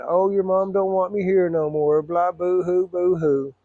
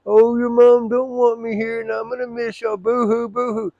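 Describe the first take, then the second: First: Slow, higher, whiny imitation of a crying father; mock crying dad. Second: Much higher, slow, loud whining parody of dad; mock crying dad. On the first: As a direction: mimic dad's sobbing plea, mocking it. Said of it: "He'd be crying". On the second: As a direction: ham up dad's tearful plea to ridicule him. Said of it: "I said, "It's the same story".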